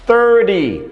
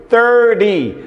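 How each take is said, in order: No difference in how they are said.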